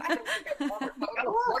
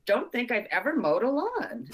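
First: High, fast, laughing through it; giggling disbelief. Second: Said in the usual way. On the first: Real, not acted. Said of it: "I have to be honest and think about it".

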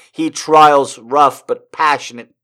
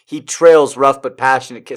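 First: "trials" said TRY-ulz; misread "trials". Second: "trails" said TRAYLZ; corrected "trails". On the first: Reader insisting on the page, "trials" with an I vowel. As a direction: slowly read "trials" with a long I sound. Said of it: "It says trials". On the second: Reader fixing the misread word, "trails" with an A vowel. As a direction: read "trails" with a long A sound. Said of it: "trying to make it trails". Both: Real, not acted.

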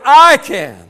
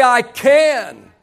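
First: "I" held high and strong, "can" falling after it; stress on I. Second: "can" stretched out and punched after a short "I"; stress on CAN. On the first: Preacher getting the congregation to notice the person, stress on "I". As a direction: lean hard on "I". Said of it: "I want you to notice the person". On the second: Preacher coaching the congregation to emphasize the word, stress on "can". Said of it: "Put the emphasis on the word can". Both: Shown as a demonstration.

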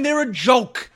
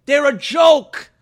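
First: Said in the usual way. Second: Slower, louder "joke"; final verdict, hammered; emphatic repeat. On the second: Real, not acted. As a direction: punch "joke".

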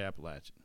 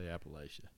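First: Appalachian with LATCH in the middle; Appalachian the East Tennessee way, short "a" as in "latch"; local pronunciation. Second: Appalachia with a long "a", as in LAY; northern pronunciation. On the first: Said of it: "down here we say Appalachian". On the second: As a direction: say Appalachia as "app-uh-LAY-shuh". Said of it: "you go north, they might say". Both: Shown as a demonstration.

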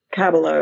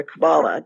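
First: First-syllable stress on Kabbalah; variant pronunciation. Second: Middle-syllable stress on Kabbalah; alternative pronunciation. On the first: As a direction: say Kabbalah as KAB-uh-luh. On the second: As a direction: say Kabbalah as kuh-BAH-luh. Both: Shown as a demonstration. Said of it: "depending on how you pronounce it".

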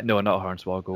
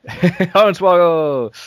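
First: Said in the usual way. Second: Laughing, drawn-out Hornswoggle! shot up high; laughing exclamation. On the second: Real, not acted. Echoing his friend's guess, laughing out the word Hornswoggle!.

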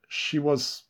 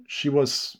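No difference in how they are said.

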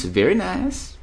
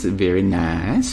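First: "Very nice" jumped up high. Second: Drawn-out, slow "Very nice". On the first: Echoing a chat fan of Aussie accents, high and playful. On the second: Answering a chat fan of Aussie accents, slow and drawn out. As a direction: stretch "Very nice" out slowly, savouring it. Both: Pretend.

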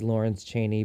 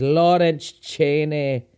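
First: Said in the usual way. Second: A hint of Scottish accent on Lawrence Chaney, mimicking RuPaul. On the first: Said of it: "says it like that". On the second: Shown as a demonstration. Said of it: "as good of a Scottish accent as I can do".

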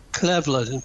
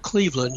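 First: "Cleveland" with a short e, CLEV-land; mock mispronunciation. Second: Said in the usual way. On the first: Shown as a demonstration. Joking about local town names, "Cleveland" mispronounced as CLEV-lund. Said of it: "they call it Cleveland, not Cleveland". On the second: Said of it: "at least they call it Cleveland".

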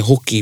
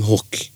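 First: "hoki" in two syllables, ending in i; full form. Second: "hoki" as one syllable, "hok"; contracted form. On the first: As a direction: sound the final i of "hoki". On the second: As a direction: drop the final i of "hoki". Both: Shown as a demonstration. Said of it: "a lot of their hoki become hoki".

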